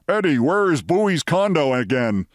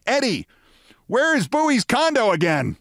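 First: Imagined mild fake shout; half-voiced imitation of a boss calling out; Steinbrenner. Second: High, hollering call; Steinbrenner. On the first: Narrator imagining faking Steinbrenner's voice, restrained shout. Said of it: "try to fake Steinbrenner's voice and shout". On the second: Retold or imitated. Steinbrenner calling back to Eddie about the condo, high holler. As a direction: pitch it way up and call across the street. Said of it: "suddenly I heard Steinbrenner say".

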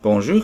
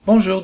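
First: Mild, polite "Bonjour" with a slight rise; polite reply. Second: Higher, falling "Bonjour"; calling greeting. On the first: A narrator's reading. Little Prince answers the unseen fox, politely. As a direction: answer the greeting politely, at ordinary pitch. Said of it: "répondit poliment". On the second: Acted. Unseen fox greets the Little Prince, calling greeting. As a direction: call out a short, lifted hello.

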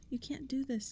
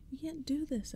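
First: Higher, protesting cry at normal volume; a girl's protest, pitched up but held back; mild mock scream. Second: Much higher, small squeaky scream; tiny mouse voice. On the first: Girl protesting to intruders, a mild mock scream. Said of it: "Tabby screamed". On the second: Boy protesting to intruders in a tiny high mouse voice. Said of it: "high and tiny like a mouse voice". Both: A narrator's reading.

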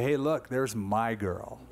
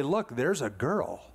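First: "my" leaned on, slow and tender; slow, lower, possessive "my"; stress on my. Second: Said in the usual way. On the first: Shown as a demonstration. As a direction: give "my" the weight, as in my own girl. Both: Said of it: "Do you have that "my".

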